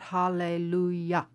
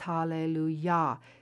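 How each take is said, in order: First: The final syllable is clipped short. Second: The final syllable is held out fully. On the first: The speaker calls it wrong. "don't cut off the ya, so it's not hallelujah" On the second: The speaker calls it right. "it's hallelujah"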